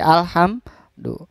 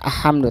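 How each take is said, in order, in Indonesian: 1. Bunyi L pada 'al' terdengar jelas. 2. Bunyi L pada 'al' dihilangkan. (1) "tapi alhamdu" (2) "jadi bukan ahamdu"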